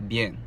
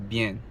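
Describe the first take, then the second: The two takes are said the same way.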